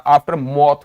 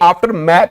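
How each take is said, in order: First: The second syllable has a vowel like 'cot'. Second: The second syllable has a vowel like 'cat'. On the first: The speaker calls it right. "आफ्टर मौत बोला जाता है" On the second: The speaker calls it wrong. "ये आफ्टर मैथ नहीं बोला जाता"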